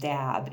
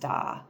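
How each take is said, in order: First: The word ends with an audible b sound. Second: The word ends on a vowel, no b. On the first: The speaker calls it wrong. "it's not pronounced dab" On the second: The speaker calls it right. "it's pronounced da"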